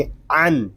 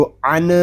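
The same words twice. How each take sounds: First: "अन" closed on a still न, no vowel after; still final n. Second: "अन" with an extra short vowel after न; wrong bounced ending. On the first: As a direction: end "अन" cleanly on the n sound. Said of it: "सुकून के साथ अदा करेंगे". ("अन" का न सुकून के साथ) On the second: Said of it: "इस तरह नहीं पढ़ेंगे". ("अन" के न को झटका देकर) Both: Shown as a demonstration.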